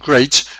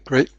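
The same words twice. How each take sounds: First: The word ends with a clear t sound. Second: The final t sounds like a p. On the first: "instead of saying great" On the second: "which may well sound like grape rather than great"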